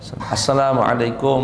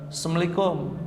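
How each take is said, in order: First: The greeting is pronounced fully and carefully. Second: The greeting is pronounced hastily and slurred. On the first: The speaker calls it right. "Ucapkan Assalamualaikum warahmatullahi wabarakatuh" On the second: The speaker calls it wrong. "saking basa-basinya sampai pengucapannya pun sering salah"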